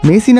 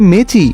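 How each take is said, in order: First: The middle consonant is an 's' sound. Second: The middle consonant is a 'ch' sound. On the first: The speaker calls it right. "মেসি না বলে" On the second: The speaker calls it wrong. "বলতেছে মেচি"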